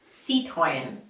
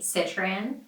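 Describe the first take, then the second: First: It is said with French sounds. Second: It is said with American English sounds. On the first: "the original French pronunciation sounds something like this" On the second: "In the U S, the majority of people say Citroën"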